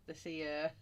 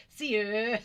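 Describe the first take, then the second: First: Said in the usual way. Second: Loud, high, hammed-up "Seer"; playful exaggeration. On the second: Playing with a word for the viewers, exaggerated and laughing. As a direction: ham up "Seer" between giggles.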